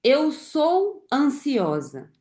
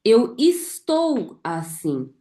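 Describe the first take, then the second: First: "sou" drawn out and stressed, slowly. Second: "estou" drawn out and stressed, slowly. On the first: Coach to her audience, slow stress on "sou". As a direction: lean on "sou" in "Eu sou ansiosa", slow. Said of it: "Quando eu falo assim". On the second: Coach to her audience, slow stress on "estou". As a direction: lean on "estou" in "Eu estou assim", slow. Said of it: "Mas e quando eu falo assim". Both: Shown as a demonstration.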